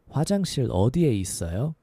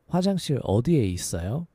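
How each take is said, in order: No difference in how they are said.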